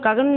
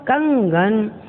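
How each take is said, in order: First: There is no nasal sound after the first syllable. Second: A nasal sound follows the first syllable. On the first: The speaker calls it wrong. "कगन नहीं, वो गलत हो रहा है" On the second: The speaker calls it right. "का के बाद अनुस्वार आ रहा है"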